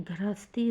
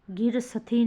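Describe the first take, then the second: First: गृहस्थी as "grha-stee", s and t joined; corrected form. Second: गिरसथी as "gir-sa-thee"; wrong form. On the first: Teacher giving students the correction, गृहस्थी as "grhastee". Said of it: "गृहस्थी होगा". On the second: Teacher showing students the error, गिरसथी as "gir-sathee". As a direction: start गिरसथी with "gir", split s and th. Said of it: "गिरसथी नहीं". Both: Shown as a demonstration.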